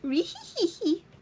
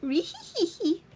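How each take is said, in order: First: It is said in a cutesy uwu girl voice. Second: The same.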